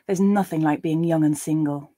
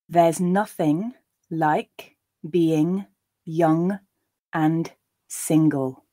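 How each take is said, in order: First: The sentence is read at a natural pace. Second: The sentence is read slowly and deliberately. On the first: "a second and third time at a more natural pace" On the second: "I'll read them slowly the first time"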